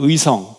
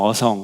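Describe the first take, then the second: First: The first vowel is pronounced as 'ui'. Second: The first vowel is pronounced as plain 'eo'. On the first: This is the name as written on the map. The speaker calls it right. "그래서 어성을 찾으면 안 돼요" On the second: This is how locals casually say the name. The speaker calls it wrong. "그래서 아무리 지도를 찾아도 어성이 없어요"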